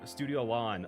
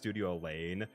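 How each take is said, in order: First: The second word does not sound like 'lane'. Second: The second word sounds like 'lane'. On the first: The speaker calls it right. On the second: The speaker calls it wrong.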